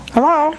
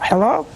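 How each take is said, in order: First: Higher, louder hello into the silent line; calling out louder. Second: Said in the usual way. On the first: Real, not acted. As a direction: call out to check if anyone's there.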